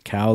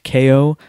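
First: The name is said as one syllable rhyming with now. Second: The name is said as two letter sounds. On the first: The speaker calls it wrong. "I had pronounced it Cow last time" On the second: The speaker calls it right. "they said K.O"

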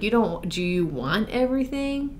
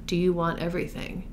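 First: It is said in a snarky, condescending tone. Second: It is said in a sincere, gentle tone. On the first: The asker thinks the listener is foolish. "his tone felt so like, you're idiot, kind of, or like" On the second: The asker genuinely wants to know. "And not like, wait, Donna"

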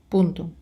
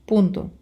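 No difference in how they are said.

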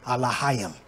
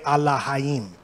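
First: The word begins with an 'ah' sound and has an 'ah' vowel. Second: The word begins with an 'ah' sound and has an 'ah' vowel.

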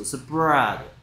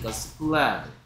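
First: The consonant after the p is an R sound. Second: The consonant after the p is an L sound. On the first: The speaker calls it right. "R은 반대 거꾸로 혀가 움직여야 된다" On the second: The speaker calls it wrong. "계속 L 소리 내고 있어"

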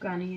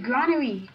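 First: The word is said with two syllables. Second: The word is said with three syllables. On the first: The speaker calls it wrong. "I think that's how you say that" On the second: The speaker calls it right. "It's a granary"

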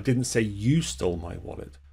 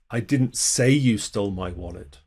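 First: The stress falls on the word 'you'. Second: The stress falls on the word 'say'. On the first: Someone else stole it. "I said someone else stole it" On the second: The speaker thinks it but never said it. "You did, I just never said it"

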